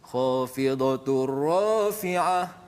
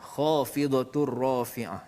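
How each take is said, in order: First: One word is raised and the other lowered. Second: Both words are recited at an even, matching pitch. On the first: The phrase is broken apart. The speaker calls it wrong. "Kita tak boleh baca" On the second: The words form a single phrase. The speaker calls it right. "Dia satu satu rangkai kata"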